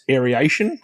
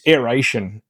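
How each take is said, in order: First: "aeration" with an extra ee, air-ee-ation; four-syllable "aeration", ee slipped in after air; mispronounced aeration. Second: "aeration" as air-AY-shun, no ee; three-syllable "aeration", air-ay-shun; corrected aeration. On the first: Retold or imitated. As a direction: say "aeration" wrongly as air-ee-AY-shun. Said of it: "people, um, pronounce it as". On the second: Shown as a demonstration. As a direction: say "aeration" straight from air into ation. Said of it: "I do not understand why".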